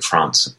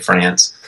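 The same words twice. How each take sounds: First: France is said the local, non-American way. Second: France is said the plain American way. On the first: This is the local way that sounds pretentious in America. "Here you say like France. But like, but then you sound really pretentious in the U.S" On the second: This is the way expected in America. "So you have to say France"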